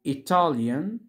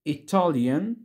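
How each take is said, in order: Both takes have the same delivery.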